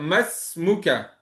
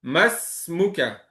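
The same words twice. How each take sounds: First: The two words run together, vowel dropped. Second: The two words run together, vowel dropped.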